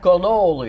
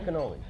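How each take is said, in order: First: The word is said in an exaggerated accent. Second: The word is said in a plain accent.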